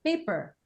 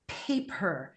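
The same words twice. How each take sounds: First: The first P sound is voiced, like a B. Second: The first P sound is voiceless and crisp. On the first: The speaker calls it wrong. "if you learn to add voice onto your P, then you say things like paper" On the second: The speaker calls it right. "instead of paper"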